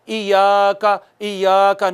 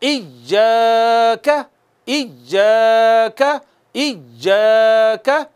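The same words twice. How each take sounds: First: इय्याका with a weak, unstressed य्य; loose tongue, wrong. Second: इय्याका with a firm, pressed य्य; stressed doubled ya. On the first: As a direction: show the slack wrong इय्याका. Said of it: "ढीली ज़बान से नहीं पढ़ना". (ढीली ज़बान वाला गलत इय्याका) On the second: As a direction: hit the य्य hard. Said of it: "ज़ोर से उस पे मारना है". (इय्याका, य्य पर ज़ोर) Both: Shown as a demonstration.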